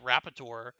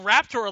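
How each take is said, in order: First: The name is said with three syllables. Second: The name is said with two syllables. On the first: The speaker calls it wrong. "pronouncing it Rapator" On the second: The speaker calls it right. "it's Raptor"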